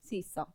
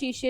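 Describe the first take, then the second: First: The word is said with 's' sounds. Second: The word is said with 'sh' sounds. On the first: The speaker calls it wrong. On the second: The speaker calls it right.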